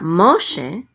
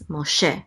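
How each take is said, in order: First: Wrongly accented Moshe, hit MO hard; stress on MO. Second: MOSHE with the accent on the last syllable, SHE; stress on SHE. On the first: Teacher showing how not to accent Moshe, stress on MO. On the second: Teacher correcting the accent of Moshe, stress on SHE. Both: Shown as a demonstration. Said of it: "The accent is on she".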